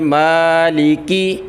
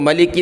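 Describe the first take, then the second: First: The first vowel is drawn out long. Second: The first vowel is short. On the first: The speaker calls it right. "खींचेंगे मालिकी" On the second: The speaker calls it wrong. "इसको मलिकी नहीं पढ़ेंगे"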